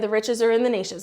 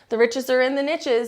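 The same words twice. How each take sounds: First: Niches is said not rhyming with riches. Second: Niches is said to rhyme with riches. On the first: The speaker calls it wrong. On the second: The speaker calls it right.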